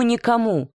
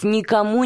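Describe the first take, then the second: First: Tipsy "никому" pitched high and falling firmly; drunken "никому", insistent fall. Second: Tipsy "никому" with a rising, pleading lilt; drunken "никому", voice rising. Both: A narrator's reading. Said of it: "совершенно пьяным голосом".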